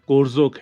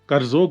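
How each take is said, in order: First: The first vowel sounds like o. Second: The first vowel sounds like a short a. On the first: The speaker calls it right. "कोरजोक है" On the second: The speaker calls it wrong. "करजोक नहीं है"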